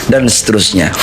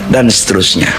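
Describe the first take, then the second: The two takes are said the same way.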